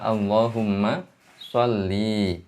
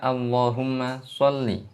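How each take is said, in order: First: The final vowel of sholli is drawn out long. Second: The final vowel of sholli is short. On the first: The meaning becomes very different. The speaker calls it wrong. "tidak boleh dibaca panjang menjadi sholli" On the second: It is a command asking God to bestow mercy. The speaker calls it right. "Mestinya kita baca"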